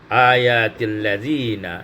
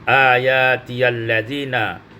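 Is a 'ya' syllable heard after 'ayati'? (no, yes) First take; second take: no; yes. First: No 'ya' syllable is heard after 'ayati'. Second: A 'ya' syllable is heard after 'ayati'. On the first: This is another traditional reading of the verse. "menjadi atil ayatil ladzi ayatil ladzina" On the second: This is one traditional reading of the verse. "Ayatiyal ladzina menjadi"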